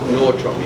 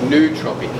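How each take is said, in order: First: The first syllable is 'nor' with an r. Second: The first syllable is 'noo' with no r. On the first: The speaker calls it wrong. "Not nortropic" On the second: The speaker calls it right. "so nootropic"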